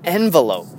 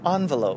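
First: It is said in an ordinary, everyday way. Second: It is said in a posh, classy way.

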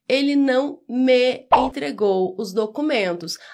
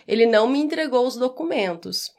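First: The word me keeps a clear e vowel. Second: Spoken fast, me sounds almost like mim.

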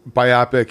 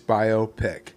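First: It sounds like the name of an eye disease. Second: It sounds like bio and pic joined together. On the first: The speaker calls it wrong. "biopic meant something like an eye disease" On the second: The speaker calls it right. "bio, and then pic. You put them together. It's biopic"

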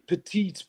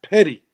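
First: The name is said with a French pronunciation. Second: The name is said with a Newfoundland pronunciation. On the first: This is the original name. "It was originally called Petite Harbor. It was named by the French" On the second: This is how locals say it. "in Newfoundland, when you sound like me"

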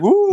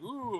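First: It is said with excited cheering energy. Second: It is said flatly, sounding unimpressed.

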